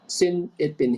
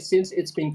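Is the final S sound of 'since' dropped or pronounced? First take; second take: dropped; pronounced. First: The S sound at the end of since is dropped. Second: The S sound at the end of since is pronounced. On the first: The speaker calls it wrong. "you left out uh, s. Like you said" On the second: The speaker calls it right. "don't forget the S sound"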